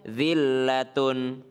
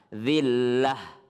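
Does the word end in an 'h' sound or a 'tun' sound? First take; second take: tun sound; h sound. First: The word ends with a full 'tun' sound. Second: The word ends with a soft 'h' sound. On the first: The reciter continues without stopping. "Kalau ada huruf berhenti seperti zillatun" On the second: The reciter stops on this word. "Jadi tunnya nggak kebaca, dia jadi ha"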